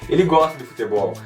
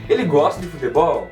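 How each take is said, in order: First: It is said with a statement intonation. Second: It is said with a questioning intonation. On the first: The speaker is asserting that he likes football. "usando uma entonação diferente, ... você iria entender que é uma afirmação" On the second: The speaker is asking whether he likes football. "Você sabe que eu fiz uma pergunta por conta da entonação que eu usei"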